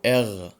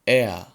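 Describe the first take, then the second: First: The letter ends in a throaty rasping sound. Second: The letter ends in a soft vowel sound. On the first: "ممكن تقول اغ" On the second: "ممكن تقولها ا"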